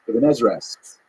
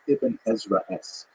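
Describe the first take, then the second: First: It is said at a faster pace. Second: It is said at a slower pace.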